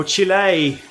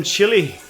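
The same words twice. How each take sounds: First: Chile said as "chee-LAY"; alternative pronunciation. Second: Chile said like "chilly"; Aussie pronunciation. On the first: Streamer trying a viewer's country another way, Chile as "chee-LAY". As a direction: stretch the ending of Chile into LAY. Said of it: "We'll call it Chile". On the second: Streamer greeting a viewer from Chile, Chile said as "chilly". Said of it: "I'll butcher it in my Aussie accent". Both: Shown as a demonstration.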